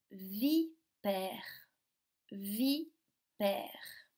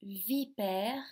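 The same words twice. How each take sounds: First: "vipère" in two beats, vi, long pause, père; split into syllables. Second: Said in the usual way. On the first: Shown as a demonstration. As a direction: break "vipère" clearly after vi. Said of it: "Deux syllabes". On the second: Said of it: "on va commencer par nommer ces objets".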